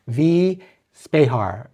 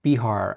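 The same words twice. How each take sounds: First: "V Spehar" with Spehar said "spay-har", slow and careful; "Spehar" pronounced spay-har, first try; unsure name. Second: "Spehar" said "spee-har", quick and falling; "Spehar" pronounced spee-har, correcting herself; second try at name. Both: Shown as a demonstration. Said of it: "I don't know how to pronounce your name".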